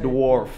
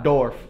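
First: The word is said with a w sound. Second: The word is said without a w sound. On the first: The speaker calls it right. "add the W" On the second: The speaker calls it wrong. "it's not Dwarf"

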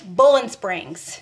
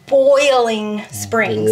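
First: The first word sounds like 'bowling'. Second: The first word sounds like 'boiling'.

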